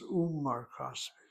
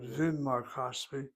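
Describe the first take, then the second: First: The phrase starts with an oo vowel. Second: The phrase starts with a v sound. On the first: The speaker calls it right. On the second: The speaker calls it wrong. "So it's not"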